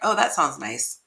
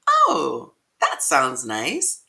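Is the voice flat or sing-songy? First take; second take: flat; sing-songy. First: The pitch stays level with little variation. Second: The pitch moves up and down in a lively way. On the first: The speaker sounds uninterested. The speaker calls it wrong. "It's not flat like" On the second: The speaker sounds warm and inviting. The speaker calls it right. "let your voice sound sing-songy"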